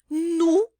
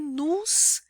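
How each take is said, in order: First: The word ends on the vowel, no final s. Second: The word ends with an s sound. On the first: The speaker calls it right. "a gente não pronuncia o S final" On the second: The speaker calls it wrong. "também não é nus"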